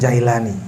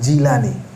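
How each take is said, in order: First: The first vowel sounds like 'ai'. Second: The first vowel sounds like 'i'. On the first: The speaker calls it wrong. "kebanyakan kita sebut" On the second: The speaker calls it right. "yang benar"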